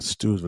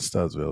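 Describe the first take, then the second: First: The first vowel is a long 'oo' sound. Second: The first vowel is a short 'uh' sound. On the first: The speaker calls it right. "Stoodsville, not Studsville" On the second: The speaker calls it wrong. "not Studsville"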